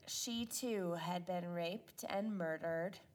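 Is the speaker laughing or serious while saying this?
serious. The sentence is said seriously, without laughing. The speaker calls it right. "That's much better"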